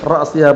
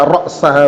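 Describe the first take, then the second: First: The vowel after the s is i. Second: The vowel after the s is a. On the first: The word is in the genitive case. "hatanya jarah" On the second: The word is in the accusative case.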